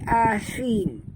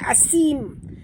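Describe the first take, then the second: First: The middle consonant is a th sound. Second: The middle consonant is a hissing s sound. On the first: The speaker calls it right. "tapi asim ya. Keluarkan hujung lidah" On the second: The speaker calls it wrong. "bukan asim"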